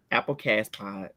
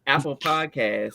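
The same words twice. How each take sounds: First: "Apple Cast Pod" said with the words swapped round, softer; garbled "Apple Cast Pod" mimicking Tree's mix-up; flubbed name. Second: "Apple Podcast" said slowly and carefully, word by word; deliberate correction, spelling out "Apple Podcast"; corrected name. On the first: Host mangles the podcast name like Tree does, swapped words. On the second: Host fixes her slip for the listeners, slow and careful. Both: Shown as a demonstration. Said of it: "See, now I'm acting like Tree".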